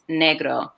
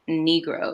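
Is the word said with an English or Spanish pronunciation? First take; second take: Spanish; English. First: The word is said with a Spanish pronunciation. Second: The word is said with an English pronunciation. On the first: The speaker calls it right. "it's Negro" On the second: It is the English word with a troubled history. The speaker calls it wrong. "it's not Negro"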